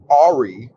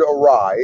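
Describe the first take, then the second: First: It is said as two syllables, AR-ee. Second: It is said as two syllables, uh-RYE. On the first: The speaker calls it wrong. "So I always read it as Ari" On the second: The speaker calls it right. "I had always heard the word awry"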